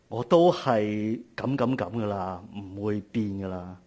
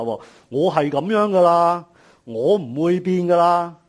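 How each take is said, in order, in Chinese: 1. 听起来无助、认命，还带着自怜。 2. 听起来嚣张、倔强，还很任性。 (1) "第一种呢係好自卑咁同自己讲" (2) "第二種呢係一種比較囂張嘅講法"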